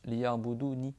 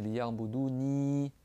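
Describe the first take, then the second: First: The word ends in a short i vowel. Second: The word ends in a long i vowel. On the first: "sans le ya de prolongation" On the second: "Avec le ya"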